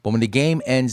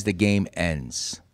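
First: Said in the usual way. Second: "the game ends" dropped low, slow and soft; slow weighty finality; slow heavy repeat. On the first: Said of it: "repeated for emphasis". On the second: Real, not acted. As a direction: let "the game ends" land slow and quiet. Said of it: "repeated slower, softer".

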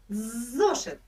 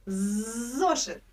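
The two takes are said the same way.

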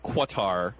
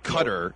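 First: "Qatar" drawn out as kwuh-TAR; rejected pronunciation. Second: "Qatar" as CUT-er; rejected pronunciation. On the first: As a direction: slowly say "Qatar" with a kw and stressed TAR. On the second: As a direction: say "Qatar" like cutter, stressed first. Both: Shown as a demonstration. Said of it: "kind of a combination of both".

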